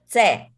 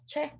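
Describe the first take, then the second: First: It begins with an s-type hissing sound. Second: It begins with a ch sound. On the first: The speaker calls it right. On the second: The speaker calls it wrong.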